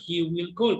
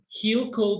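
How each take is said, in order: First: 'Will' is said as a full separate word. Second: 'Will' is shortened and joined onto 'he'. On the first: "la estructura completa" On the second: "si quieren utilizar contracción, es esta"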